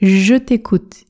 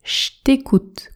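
First: 'Je t'' is said as two separate syllables. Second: 'Je t'' merges into a single 'ch' sound. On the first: "Le premier est « Je t'écoute »" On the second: "qui se prononce « Je t'écoute » quand on parle vite, avec le son « Ch »"

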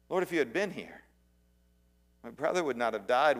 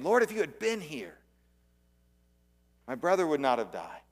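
First: It is said with disappointment. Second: It is said with anger and pain.

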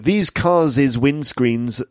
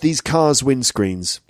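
First: An extra syllable is added after cars. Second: Cars is said as one syllable. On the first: The speaker calls it wrong. "it's not cars's" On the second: The speaker calls it right. "it's just these cars' windscreens"

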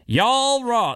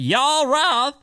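First: It is said in his ordinary accent. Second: It is said in a country accent.

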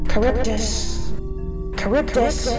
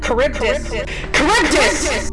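First: The name is called urgently but under control. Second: The name is called in a panicked voice.

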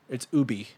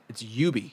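First: It is pronounced the French way. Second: It is pronounced the English way. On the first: "if you're a true Frenchman" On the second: "if you're an Englishman"

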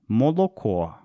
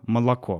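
First: Every o is pronounced fully, northern dialect style. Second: Unstressed o vowels are reduced, standard literary style.

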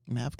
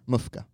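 First: The middle consonant is a v sound. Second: The middle consonant is an f sound.

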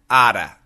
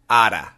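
First: The words blend fast into one short word. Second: The same.

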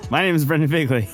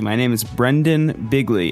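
First: The first and last names run together. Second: The first and last names are clearly separated. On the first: The speaker calls it wrong. "I don't think I said my name correctly" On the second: The speaker calls it right.

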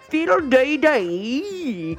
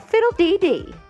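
First: It is said in a Cockney accent. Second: It is said in the speaker's normal accent. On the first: "Say it Cockney" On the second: "Try saying it right now"

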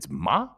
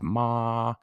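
First: The pitch rises through the syllable. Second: The pitch stays high and level. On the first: It marks a question. "which is the second tone" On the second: It means horse. "first tone, monotone"

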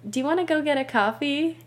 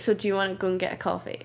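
First: It is said in an American accent. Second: It is said in a Scottish accent.

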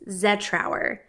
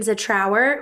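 First: The stress is on the first syllable. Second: The stress is on the last syllable. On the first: The speaker calls it right. "the correct way to say my last name is Zetrauer. Emphasis on the Z" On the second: The speaker calls it wrong. "with the emphasis on our"

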